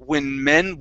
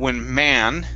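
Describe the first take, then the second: First: The vowel in men is a short e. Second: The vowel in men is an a sound. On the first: The speaker calls it right. "this is a short e" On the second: The speaker calls it wrong. "instead of saying when man with with an a sound"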